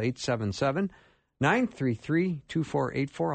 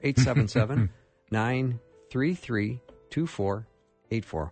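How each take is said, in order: First: The number is read at normal speed. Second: The number is read more slowly.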